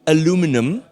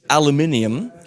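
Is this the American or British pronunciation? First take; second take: American; British. First: It is said with an American pronunciation. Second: It is said with a British pronunciation. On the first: "for our American friends" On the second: "For our British friends"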